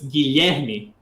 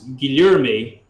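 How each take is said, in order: First: The E vowel sounds open, Portuguese-style. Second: The E vowel sounds closed off, English-style. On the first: The speaker calls it right. "In Portuguese, it's ... very open sounding for the letter E" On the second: The speaker calls it wrong. "in English, you guys would pronounce"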